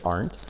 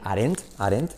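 First: The word gets a natural native pronunciation. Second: The word gets a careful textbook pronunciation. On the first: This is how native speakers say it. The speaker calls it right. "pero es aren't" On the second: This is how schools teach it. The speaker calls it wrong. "Nos enseña a decir aren't"

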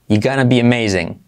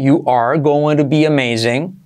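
First: Both you're and gonna are contracted. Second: Every word is said in full, uncontracted. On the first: "Contraerlo todo así" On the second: "Puedes hacerlo así"

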